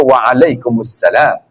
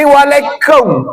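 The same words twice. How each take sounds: First: Slow "Waalaikumsalam" with every syllable sounded; correct full reply. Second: "Waalaikum" drawn out with the salam part dropped; mock lazy reply. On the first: Shown as a demonstration. Preacher demonstrating the proper reply to a salam, slow and clear. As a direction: say "Waalaikumsalam" fully and deliberately. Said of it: "wajib kena jawab". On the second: Preacher mocking a careless reply to a greeting, lazy and clipped. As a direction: imitate a careless "Waalaikum", cut short of salam. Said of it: "Pasal sebut teh tak betul".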